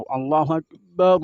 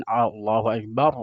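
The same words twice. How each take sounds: First: Akbar dengan bibir bawah naik ke atas, keras; ra azan monyong. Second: Said in the usual way. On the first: Retold or imitated. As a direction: tiru muazin yang memonyongkan ra. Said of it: "bibir bawahnya ini ke atas". (Akbar diserukan dengan ra monyong) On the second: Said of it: "Begitu juga orang azan".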